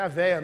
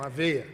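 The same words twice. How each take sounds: First: "veia" said with an open É, like "véia"; open e mispronunciation. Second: "veia" said with a closed E, "vêia"; closed e correction. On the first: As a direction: stress "veia" with an open vowel, VÉ-ia. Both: Shown as a demonstration. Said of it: "não, a veia".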